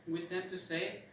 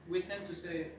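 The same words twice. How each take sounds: Both takes have the same delivery.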